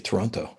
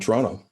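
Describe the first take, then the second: First: It is said with every sound clearly articulated. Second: It is said in a relaxed, local way. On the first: This is the careful, technical form. "I have to really articulate and say Toronto" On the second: This is how locals say it. "I'm going to say it the way we say it"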